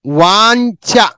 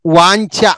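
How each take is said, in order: First: వాంఛ stretched very slowly, the nasal and the ఛ both clear; very slow model word. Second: Said in the usual way. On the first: Shown as a demonstration. Teacher modelling వాంఛ slowly for the class. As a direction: hold వాంఛ long so pupils hear each sound. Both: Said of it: "వాంఛ అని పలకాలి".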